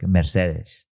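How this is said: It is said with a German, Latin-like pronunciation. The speaker calls it right. "it sounds more like uh, Latin based, like Mercedes"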